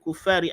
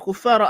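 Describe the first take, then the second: First: The word ends with an 'i' vowel. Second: The word ends with an 'a' vowel. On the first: The word takes the case of the nearby genitive word. "majrur sebab dia mujawirah" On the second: The word is the object of the verb. "dengan nasab"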